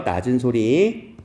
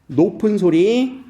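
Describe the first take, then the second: First: Drawn out slowly on a low pitch; low sound. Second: Drawn out slowly on a high pitch; high sound. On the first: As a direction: say "낮은 소리" low and stretched. (낮은 소리로 길게) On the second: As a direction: say "높은 소리" high and stretched. (높은 소리로 길게) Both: Shown as a demonstration.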